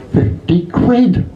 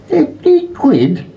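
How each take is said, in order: First: High, slow disbelieving rise; drawn-out high amazement at the price; surprised. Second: Very high, slow stunned question; slow squeal of disbelief; incredulous. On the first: Woman reads the parrot's price tag, high amazed drawl. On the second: Woman repeats the parrot's price, very high stunned question. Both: Acted.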